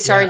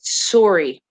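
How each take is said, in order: First: It is said in her ordinary, non-Canadian accent. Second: It is said in an imitated Canadian accent. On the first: This is how the speaker herself says it. "I say" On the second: This is how the Canadian actor said it. "he said sorry"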